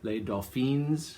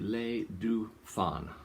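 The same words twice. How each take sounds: First: The final S is sounded aloud. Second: The final S is left silent. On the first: The speaker calls it wrong. "a lot of times people pronounce it Les Dauphins and pronounce the S" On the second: The speaker calls it right. "you don't pronounce the S at the end"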